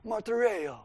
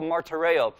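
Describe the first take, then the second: First: Higher, softer mock mobster accent; Godfather accent. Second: Said in the usual way. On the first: Preacher playfully showing how to say the Greek word, Godfather accent. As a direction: put on a Godfather-style accent. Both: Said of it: "like, a Godfather kind of accent".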